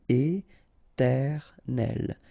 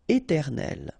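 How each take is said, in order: First: Very slow "éternel", é-ter-nel; syllable by syllable. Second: Said in the usual way. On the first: Shown as a demonstration. French teacher modelling for learners, "éternel" slowly syllable by syllable. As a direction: pause between each syllable of "éternel".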